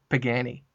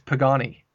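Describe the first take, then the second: First: The first syllable sounds like 'pag'. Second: The first syllable sounds like 'pog'. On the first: The speaker calls it wrong. "not Pagani" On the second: The speaker calls it right. "It's Pagani"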